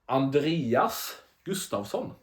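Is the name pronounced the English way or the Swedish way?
Swedish. The name is said with a Swedish pronunciation. The speaker calls it right. "How you pronounce uh, his name is Andreas Gustafsson"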